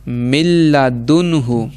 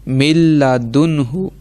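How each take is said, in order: No difference in how they are said.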